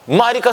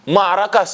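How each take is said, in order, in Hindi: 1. दूसरा स्वर 'i' की आवाज़ है। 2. दूसरा स्वर 'a' की आवाज़ है। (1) "मारिका सही नहीं है" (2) "माराका सही है"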